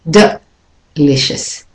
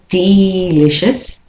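First: The first vowel is weak and reduced. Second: The first vowel is said fully and clearly. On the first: The speaker calls it right. "The E is not said clearly" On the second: The speaker calls it wrong. "So it's not delicious"

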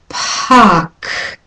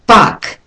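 First: The p and k have a strong puff of air. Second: The p has no puff of air. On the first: The speaker calls it right. "holding the k at the end on longer and putting more air in" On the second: The speaker calls it wrong. "So unaspirated, stopped, it's bark"

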